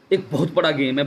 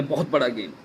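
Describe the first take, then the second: First: Said in the usual way. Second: Much softer, lower repeat of बहुत बड़ा game; quiet lower echo. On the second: Real, not acted. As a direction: let बहुत बड़ा game sink into a low murmur. Emphatic repeat of claim. (धीमी, नीची आवाज़ में दोहराना)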